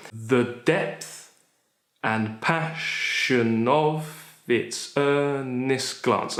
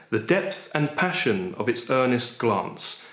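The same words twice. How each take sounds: First: "The depth and passion of its earnest glance" slow, each stress beat marked; stressed scansion. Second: Said in the usual way. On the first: Shown as a demonstration. Teacher scanning the line for students, stresses marked. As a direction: tap out the five stresses slowly. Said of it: "five in the meter". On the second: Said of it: "let's just take a random line".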